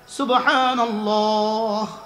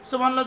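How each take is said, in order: First: It is said slowly, followed by a pause. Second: It is said quickly, run into the next.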